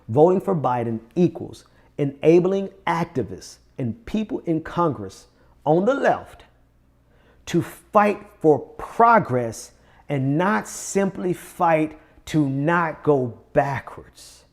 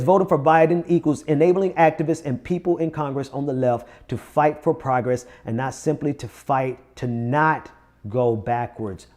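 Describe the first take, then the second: First: It is read slowly. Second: It is read at a normal speed.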